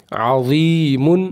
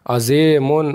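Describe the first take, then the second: First: अज़ीमुन said slowly with a long ee and short u; correct reading. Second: अज़ेमुन with a long e in place of ee; wrong reading. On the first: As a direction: model अज़ीमुन, ee held. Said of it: "पढ़ना है किस तरीके से?". (अज़ीमुन को सही लंबी ई से पढ़ना) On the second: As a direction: mispronounce अज़ेमुन, stretching e. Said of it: "जे हैं गलत". (अज़ीमुन को ग़लत "अज़ेमुन" पढ़ना) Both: Shown as a demonstration.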